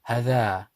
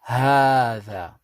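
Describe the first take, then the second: First: The vowel after the h is short. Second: The vowel after the h is long. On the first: The speaker calls it wrong. "if we was to read this, this actually says ha, dha, hadha" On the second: The speaker calls it right. "because of that rule, we say hadha"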